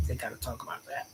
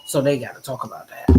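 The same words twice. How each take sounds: First: Breathy whispered aside, barely voiced. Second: Said in the usual way. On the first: Shown as a demonstration. Streamer whispering a gossip aside to viewers. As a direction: drop to a secret whisper.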